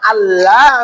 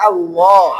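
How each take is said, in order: First: The L sound is thin and light. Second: The L sound is heavy and full. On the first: The speaker calls it wrong. "আল্লাহ না" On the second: The speaker calls it right. "লামকে মোটা করে পড়তে হয়"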